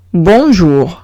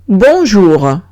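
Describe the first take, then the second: First: Bonjour lower, with a rolled Spanish-style r at the end; French bonjour repeated. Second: Bonjour, zh sound and uvular r; French pronunciation of bonjour. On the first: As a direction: repeat bonjour slowly for the class. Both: Shown as a demonstration. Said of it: "Siguiente palabra".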